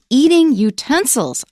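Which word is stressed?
utensils. The stress falls on the word utensils. Someone is eating the utensils. The speaker calls it wrong. "we don't say eating utensils"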